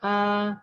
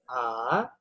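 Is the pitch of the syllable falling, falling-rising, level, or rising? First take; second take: level; falling-rising. First: The pitch stays high and level. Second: The pitch dips low, then rises. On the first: "nada datar" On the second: "nada tiga atau nada turun kemudian naik"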